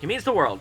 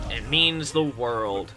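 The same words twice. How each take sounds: First: It is said in a sincere tone. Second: It is said in a sarcastic tone. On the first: The thanks is genuinely meant. The speaker calls it right. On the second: The thanks is not really meant. The speaker calls it wrong.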